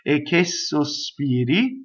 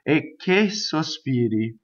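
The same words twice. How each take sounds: First: The S sound of sospiri is doubled. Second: The K sound of che is doubled.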